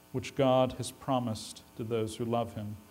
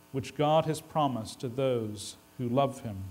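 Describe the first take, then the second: No difference in how they are said.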